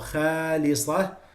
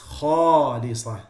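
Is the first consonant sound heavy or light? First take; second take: light; heavy. First: The kh sound is light and not elevated. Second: The kh sound is heavy and elevated. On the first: The speaker calls it wrong. "not khalisah" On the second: The speaker calls it right. "It's khalisah"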